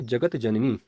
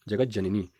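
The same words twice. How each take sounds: First: जगत जननी with a separate t before j; unjoined pronunciation. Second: जगत जननी fused as "jagajjanani"; correct sandhi pronunciation. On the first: Teacher reading the misspelt term, जगत जननी kept unjoined. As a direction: say जगत जननी as two words, "jagat janani". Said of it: "शब्द बनेगा जगत जननी". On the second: Teacher giving the joined form, जगत जननी said "jagajjanani". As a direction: turn the t of जगत जननी into a doubled j. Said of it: "यही इसका शुद्ध रूप है". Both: Shown as a demonstration.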